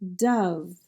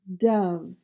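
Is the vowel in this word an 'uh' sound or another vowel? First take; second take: uh sound; uh sound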